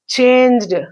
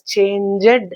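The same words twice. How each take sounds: First: The word is said as one syllable. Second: The word is said as two syllables. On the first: "monosyllabic word" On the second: "It should be pronounced as changed"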